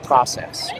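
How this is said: It is said with an American pronunciation. "Americans say process"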